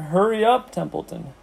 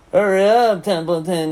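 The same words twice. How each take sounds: First: High, pressing plea; urgent urging. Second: Loud, high mocking mimicry; Wilbur. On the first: Pig to rat in no hurry, urging. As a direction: urge him on, pitched up. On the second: Rat imitating the pig, mocking. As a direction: throw his plea back in a put-on voice. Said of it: "He began imitating Wilbur's voice". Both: A narrator's reading.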